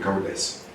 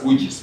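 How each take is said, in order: First: The name sounds like 'cow-dice', with a diphthong. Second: The name sounds like 'koo-jis', two short syllables. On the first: This is how it is said in the Netherlands. "in Netherlands it's called cow dice" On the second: This is how people say it locally. "Here you pronounce as kujis"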